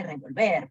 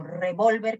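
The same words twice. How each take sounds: First: "revolver" stressed on the final VER; stress on last syllable. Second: "revólver" stressed on VÓL; stress on middle syllable. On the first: Teacher showing accent changes meaning, final-syllable stress on "revolver". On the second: Teacher showing accent changes meaning, middle-syllable stress on "revólver". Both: Shown as a demonstration. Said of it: "podría determinar cambio de significado".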